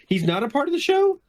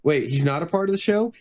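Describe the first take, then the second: First: Incredulous repeat. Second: Said in the usual way. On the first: Acted. Questioning whether the body was part of the show, incredulous. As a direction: pitch climbing high through to SHOW.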